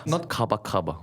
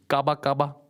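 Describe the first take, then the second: First: Kaba kaba said plainly, the mistaken way; the wrong kaba kaba. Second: Kaba kaba said higher, first kaba lifted; right kaba kaba. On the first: Correcting a friend: the wrong kaba kaba first. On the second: Teaching a friend the Togolese phrase, higher, proper pronunciation. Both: Shown as a demonstration.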